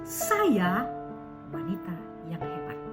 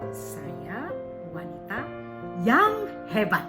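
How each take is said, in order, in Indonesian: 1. Kata pertama yang ditekankan. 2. Kata terakhir yang ditekankan. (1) "yang ditekankan adalah sayanya" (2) "umpama kita berikan intonasi kepada yang hebat"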